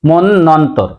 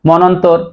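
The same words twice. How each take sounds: First: The n sound is doubled. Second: The n sound is single. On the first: The speaker calls it right. "সঠিক উচ্চারণ হবে মনন্তর।" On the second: The speaker calls it wrong. "অনেকে উচ্চারণ করি মনন্তর।"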